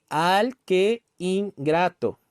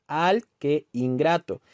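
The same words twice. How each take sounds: First: "al que ingrato" very slow, broken into al, que, in, grato; syllable by syllable. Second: "al que ingrato" slow, que running closer into ingrato; syllables joining. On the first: Teacher showing students where the syllables meet, syllable by syllable. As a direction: separate each syllable of "al que ingrato", keeping que and in apart. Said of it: "estas son dos sílabas".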